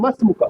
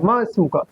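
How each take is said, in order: First: The words run together quickly, dropping the glottal stop. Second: The two words are said separately, with the glottal stop.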